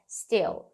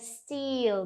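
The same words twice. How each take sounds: First: The vowel is a short, closed i. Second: The vowel is spread wide, like a smile. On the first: The speaker calls it right. "é still ... izinho fechado" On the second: The speaker calls it wrong. "não é still, não é sorridente"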